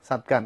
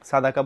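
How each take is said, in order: First: The word has two syllables, sad-qa. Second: The word has three syllables, sa-da-qa. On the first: The speaker calls it wrong. "সাদকা না" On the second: The speaker calls it right. "সাদাকা বলা ভালো"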